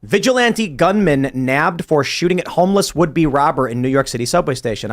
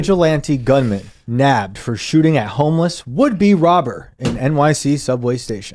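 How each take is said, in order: First: Headline read. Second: Slow news headline delivery; headline read. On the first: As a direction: read it out like a news anchor. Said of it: "I want you to analyze that headline". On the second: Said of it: "read it for me, [name]". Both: Shown as a demonstration.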